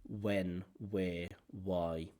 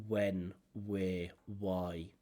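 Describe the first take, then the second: The two takes are said the same way.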